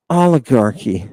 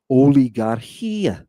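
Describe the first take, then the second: First: Said in the usual way. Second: "Oligarchia" drawn out slowly in Greek syllables; Greek pronunciation. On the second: Shown as a demonstration. Teacher reading Greek to students, slow Greek pronunciation.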